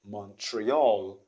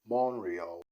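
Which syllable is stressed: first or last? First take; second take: last; first. First: The stress is on the last syllable. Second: The stress is on the first syllable. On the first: The speaker calls it wrong. "People do say Montreal. You can see they stress the last syllable" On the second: The speaker calls it right. "the stress is stressed at the is at the first syllable"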